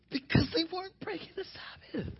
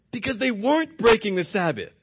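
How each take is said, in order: First: Very high, soft, squeaky-light delivery; high, hushed answer. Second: Said in the usual way. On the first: Real, not acted. Preacher answering his own "How?", high and hushed. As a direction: lift it right up and keep it small.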